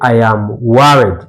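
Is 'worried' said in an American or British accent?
American. American accent, with an A vowel in worried. "Americans they say"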